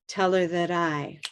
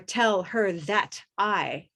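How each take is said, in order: First: The words are linked into one smooth word. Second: Each word is said separately, not linked. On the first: The speaker calls it right. "We're linking and connecting these words into one small word" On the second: The speaker calls it wrong. "Notice that I'm not saying tell her that I"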